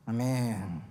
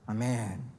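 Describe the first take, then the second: No difference in how they are said.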